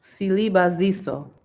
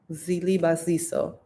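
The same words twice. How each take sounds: First: Silibaziso with a clear s sound at the start, falling at the end; name said again. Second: Zilibaziso with a buzzing z sound at the start; alternate name attempt. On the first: Retrying the viewer's name, s-sound Silibaziso. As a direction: say Silibaziso with a crisp s. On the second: Retrying the viewer's name, z-sound Zilibaziso. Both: Shown as a demonstration. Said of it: "let me see how to say it again".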